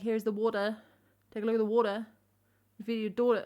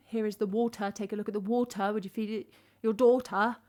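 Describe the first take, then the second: First: "water" and "daughter" without a crisp T; dropped T's. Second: Crisp T in "water" and "daughter"; "water" and "daughter" with fully sounded T's; T's pronounced. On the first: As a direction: let the T go slack in "water" and "daughter". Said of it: "Or it's like". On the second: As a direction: hit the T hard in "water" and "daughter". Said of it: "whether or not I'm gonna pronounce my T's". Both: Shown as a demonstration.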